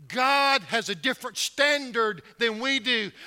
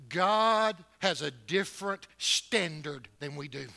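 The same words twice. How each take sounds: First: The line again, louder and higher, preaching; repeated louder. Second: Said in the usual way. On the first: Shown as a demonstration. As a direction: hammer it home with a louder second take.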